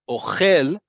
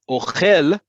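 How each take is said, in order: First: The stress is on the last syllable. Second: The stress is on the last syllable.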